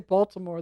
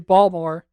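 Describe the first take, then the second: First: All syllables of the word are fully pronounced. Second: The middle syllables are dropped from the word. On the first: "They don't say Baltimore" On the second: "They say half the word"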